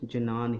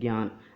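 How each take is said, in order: First: The word begins with a j followed by n. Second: The word begins with a gy sound. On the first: This is the traditional Sanskrit scholars' pronunciation. "Sanskrit भाषा के जो पंडित हैं ... वो आज भी इस शब्द को जनान ही पढ़ते हैं" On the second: This is the everyday Hindi pronunciation. "यदि हम हिंदी में इसको पढ़ें तो हम इसका उच्चारण करते हैं ज्ञान"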